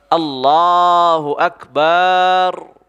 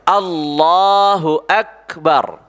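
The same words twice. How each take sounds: First: The vowel of ba is drawn out long. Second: No vowel is drawn out; all are short. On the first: The speaker calls it wrong. "dipanjangkan baknya" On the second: The speaker calls it right. "Begitu ucapnya"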